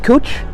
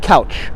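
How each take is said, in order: First: The vowel sounds like 'oo' in 'cool'. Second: The vowel sounds like 'ow' in 'cow'. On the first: This is how the locals say it. "I don't know why they pronounce it Cooch" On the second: This is how the speaker would say it. "I'm pronouncing it Couch"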